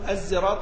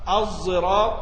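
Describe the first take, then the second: First: The first consonant is a plain, light z sound. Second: The first consonant is a heavy, emphatic z-like sound. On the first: The speaker calls it wrong. "ولا تقرأ زاي خالصة، ما تقول الزراط" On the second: The speaker calls it right. "زي كانها زاي مفخمه"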